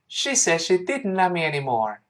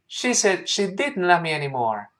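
The two takes are said the same way.

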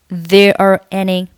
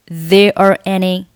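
Both takes have the same delivery.

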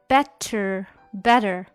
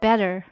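First: The middle consonant is a clear t sound. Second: The middle consonant sounds like a soft d.

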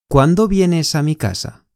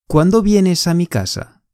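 The two takes are said the same way.

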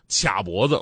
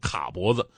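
First: The first syllable is read qia. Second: The first syllable is read ka. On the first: The speaker calls it right. "还有一个词儿经常用错啊，就是卡脖子" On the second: The speaker calls it wrong. "经常会被念成卡脖子"

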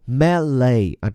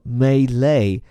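First: The stress is on the first syllable. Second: The stress is on the second syllable. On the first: "一种呢叫做melee，重音在前面" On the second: "另外一种呢发在后面，叫做melee"

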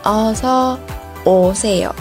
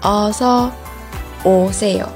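The two takes are said the same way.

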